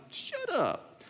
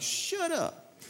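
First: High, soft incredulous shut up; mock disbelief. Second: High, breathy-soft incredulous shut up; mock disbelief. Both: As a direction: squeal it in disbelief. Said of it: "I'm like".

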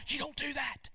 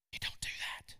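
First: A short shouted warning; preacher shouting the line to the congregation; mock shout. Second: Hushed whispered repeat; preacher whispering the warning back. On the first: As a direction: call it out sharply. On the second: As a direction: drop to a whisper, softer. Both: Shown as a demonstration. Preacher contrasts shout and whisper.

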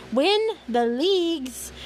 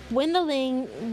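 First: "win the leagues" slow and higher, each word set apart; emphatic correction. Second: Said in the usual way. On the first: Real, not acted. Reader fixing a slip in the story, emphatic "win the leagues". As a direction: punch "win", then land slowly on "leagues".

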